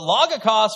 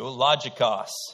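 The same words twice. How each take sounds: First: The g is a hard g sound. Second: The g is a soft j-like sound.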